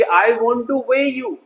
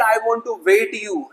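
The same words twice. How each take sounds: First: "weigh" said slowly with no t, pitch high; correct weigh. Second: "weight" said with a clear final t, slowly; wrong word weight. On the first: Teacher modelling the right sentence to students, slow and clear. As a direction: stretch "weigh" with no t. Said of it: "लेकिन अगर मैं कहूं कि". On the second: Teacher showing students the common mistake, t sounded. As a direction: sound the t in weight you, as the error. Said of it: "बिल्कुल गलत". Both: Shown as a demonstration.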